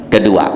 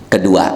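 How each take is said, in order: Both takes have the same delivery.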